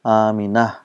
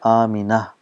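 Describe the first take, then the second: First: The name ends softly with an 'h' sound. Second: The name ends softly with an 'h' sound.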